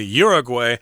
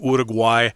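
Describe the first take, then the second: First: It is said with an American pronunciation. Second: It is said with a Spanish pronunciation. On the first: This is how American English speakers say it. "since we're speaking American English here, we'll say Uruguay" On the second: This is how local people say it. "If you're from there, I suppose you'd say Uruguay"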